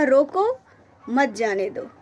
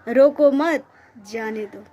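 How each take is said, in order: First: The pause comes right after 'roko'. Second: The pause comes right after 'mat'.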